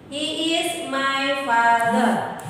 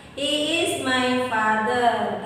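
First: Slow, careful dialogue line; a teacher reading the dialogue line slowly; slow model sentence. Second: Slow, careful dialogue line; a teacher repeating the dialogue line slowly; slow model sentence. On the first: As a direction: read it slowly for the class. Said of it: "dengarkan dialognya ya". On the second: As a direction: repeat it slowly after the translation. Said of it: "Tidak, bukan". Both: Shown as a demonstration.

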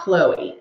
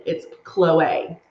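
First: Chloe said as KLOH-ee, the wrong way. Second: Chloe said as KLOH-ay, the right way. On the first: Correcting viewers, the wrong Chloe as KLOH-ee. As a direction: Chloe ending in a plain ee sound. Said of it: "not Chloe". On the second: Correcting viewers, the right Chloe as KLOH-ay. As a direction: Chloe ending in ay, said firmly. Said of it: "It's Chloe, not Chloe". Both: Shown as a demonstration.

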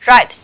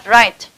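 First: RIGHT with a hissed s after the t, "rights"; "Right" ending in ts; final s added. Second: RIGHT ending on a released t; "right" closed with t alone; final t only. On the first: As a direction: add a voiceless s to "Right". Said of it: "chúng ta sẽ đọc thành âm s". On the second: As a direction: say "right" with a clear t, no s. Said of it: "tận cùng bằng t". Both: Shown as a demonstration.

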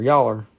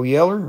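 First: "Yaller" said with an open ah in the first syllable. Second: "Yeller" said with a short e, as in yell. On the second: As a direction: say "Yeller" with the first vowel of yell. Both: Shown as a demonstration. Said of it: "Oh, Yeller or Yaller?".

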